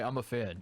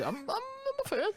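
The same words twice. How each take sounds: First: Said in the usual way. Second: Much higher, slow, stammering squeal; high squeaky fan voice. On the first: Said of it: "You also can't just say". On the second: Shown as a demonstration. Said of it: "You have to say".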